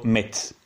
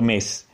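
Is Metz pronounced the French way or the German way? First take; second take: German; French. First: The name is said with German pronunciation. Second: The name is said with French pronunciation. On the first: "in tedesco, in lorenese anche, viene pronunciato Metz" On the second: "in francese viene pronunciato Metz"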